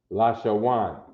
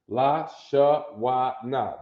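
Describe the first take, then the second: First: The name ends with a short 'n' sound. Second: The name ends with a full 'na' syllable. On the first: The speaker calls it right. "That's how that's pronounced" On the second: The speaker calls it wrong. "That's not the, the correct pronunciation"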